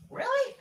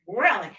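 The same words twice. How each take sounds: First: High incredulous squeak of really. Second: Said in the usual way. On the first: Real, not acted. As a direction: sound floored. Incredulous reaction.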